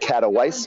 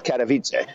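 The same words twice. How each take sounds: First: It is said the way the English spelling suggests. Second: It is said with the native Polish pronunciation. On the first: The speaker calls it wrong. "It looks like Katowice" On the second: The speaker calls it right. "but it's Katowice"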